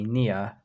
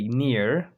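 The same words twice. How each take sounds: First: It is said in a British accent. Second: It is said in an American accent. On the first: "but the British will say near and here" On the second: "the Americans will say near or here"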